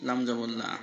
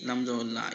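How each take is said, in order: Both takes have the same delivery.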